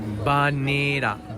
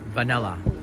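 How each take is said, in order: First: It starts with a b sound and has r. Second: It starts with a v sound and has l. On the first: "In Japanese, we say banira" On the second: "or vanilla"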